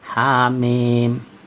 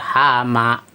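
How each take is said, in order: First: Each letter is read by its full, long name. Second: The letters are read as short joined syllables. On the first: The speaker calls it right. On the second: The speaker calls it wrong.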